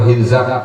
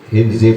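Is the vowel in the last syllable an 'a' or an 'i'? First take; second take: a; i. First: The last syllable has an 'a' vowel. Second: The last syllable has an 'i' vowel.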